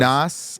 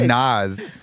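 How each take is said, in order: First: The name ends with a hissing s sound. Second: The name ends with a buzzing z sound. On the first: "like [name] Nosferatu" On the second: "like the guy's got a schnoz"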